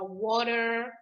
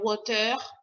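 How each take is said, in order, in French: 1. Le R se prononce comme un R anglais. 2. Le R se prononce comme un R français. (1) "Mais le R en anglais, il est un peu plus, il est roulé en fait. Donc, ce sera" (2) "En français, le R, il est prononcé d'une manière particulière, mais qu'on ne doit pas transposer en anglais. Donc, on ne va pas dire"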